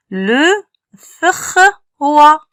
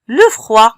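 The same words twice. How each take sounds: First: "Le, fr, wa" in three separate pieces; son par son. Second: Said in the usual way. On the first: Shown as a demonstration. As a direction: pause after "Le" and "fr", then a higher "wa". (« Le, fr, wa » découpé son par son) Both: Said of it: "le son, fr".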